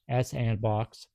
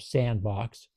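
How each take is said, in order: First: The S is said as a separate letter. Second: The S is blended into one word.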